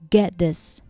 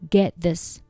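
The two takes are said the same way.

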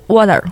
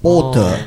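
First: It is said in an American accent. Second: It is said in a British accent.

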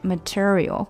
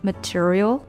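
First: The pitch falls at the end of the word. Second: The pitch rises at the end of the word. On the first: The word stands alone. "如果我们单独读这个单词，那它应该是material" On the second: The sentence is not finished yet. "因为它在句子中稍微向上扬一点点，就变成了material"

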